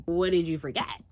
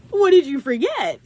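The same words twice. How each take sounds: First: Said in the usual way. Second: Loud, high-pitched retort; incredulous, raised-voice question; indignant demand. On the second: Retold or imitated. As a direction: demand it loudly, voice shooting up. Repeats the question, alarmed.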